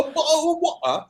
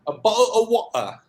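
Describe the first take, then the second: First: "of" pitched very high and stressed. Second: "bottle" stressed, higher pitch. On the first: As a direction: hit "of" high and fall on "water". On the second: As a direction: lean on "bottle", falling tune. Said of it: "What bottle?". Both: Shown as a demonstration.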